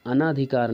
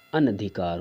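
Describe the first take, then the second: First: अनाधिकार with long naa; wrong long aa. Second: अनधिकार with a short na; correct short a. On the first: Teacher citing the error, अनाधिकार with long naa. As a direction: stretch the second vowel of अनाधिकार. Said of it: "अनाधिकार नहीं होता". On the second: Teacher giving the right word, अनधिकार with short na. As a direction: keep the second vowel of अनधिकार brief. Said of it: "अनधिकार होता है". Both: Shown as a demonstration.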